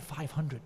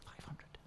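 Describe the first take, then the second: First: Said in the usual way. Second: Breathless disbelieving whisper; stunned whisper. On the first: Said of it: "he said something like". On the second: Retold or imitated. Speaker echoing the uncle's number, in a stunned whisper. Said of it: "I was like".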